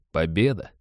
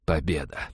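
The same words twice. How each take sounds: First: "Победа" said as a question, rising at the end. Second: Low, soft murmur of victory; murmured, near-whisper. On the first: Narrator doubts the team gained anything, "Победа" rising in question. Bitter doubt about the win. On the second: Wounded commander leans back after winning, near-whisper. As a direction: breathe the word out low and quietly. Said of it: "прошептал Роджер". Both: A narrator's reading.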